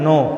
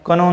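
First: No k sound is heard at the start. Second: A k sound is heard at the start. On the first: The speaker calls it right. "के silent ठेवायचा" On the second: The speaker calls it wrong. "कनो नाही म्हणायचं"

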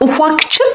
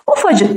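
First: A k sound is kept before the ending. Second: No k sound is heard before the ending. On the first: The speaker calls it wrong. "biz buna ufakçık mı deriz? Hayır, böyle demiyoruz" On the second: The speaker calls it right. "Ufacık diyoruz. ... K düştü"

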